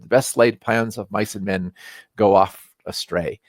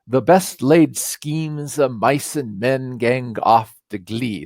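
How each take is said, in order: First: Said in the usual way. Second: Put-on "gang off" and "glee" read slow in the old Scots wording; the original Scots line, slow and deliberate. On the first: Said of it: "the line that you've all heard". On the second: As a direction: give "The best laid schemes of mice and men gang off to glee" slowly, as Burns wrote it. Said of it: "written in a Scottish brogue".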